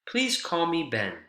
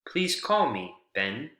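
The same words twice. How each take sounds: First: It is said as one phrase without a pause. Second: There is a pause before the final name. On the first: The speaker's name is Ben. "That's one thought group all together" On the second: Ben is being asked to make a call. "please call me Ben with a comma here is a, is a command or a, a suggestion, a request"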